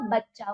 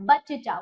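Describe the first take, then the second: First: बच्चा as bach-chaa; correct half च. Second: बच्चा as ba-che-chaa; wrong full च. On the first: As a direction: double the च in बच्चा without a vowel between. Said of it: "तभी जाके ये उच्चारण होगा". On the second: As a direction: slip a vowel after first च in बच्चा. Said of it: "वो गलत है". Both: Shown as a demonstration.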